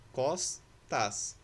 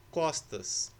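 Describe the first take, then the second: First: "Costas" broken as cos, tas; split into syllables. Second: Said in the usual way. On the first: Shown as a demonstration. Teacher showing S separated from T, "Costas" syllable by syllable. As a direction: pause between the two syllables of "Costas". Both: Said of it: "O S separado do T".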